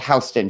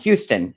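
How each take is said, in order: First: It is pronounced differently from the Texas city. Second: It is pronounced like the Texas city's name. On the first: This is how locals say the street name. "but it's called Houston Street" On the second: This is how an outsider would say the street name. "if you are not from New York, you would pronounce it um, Houston. It's spelled like Houston, like in Texas"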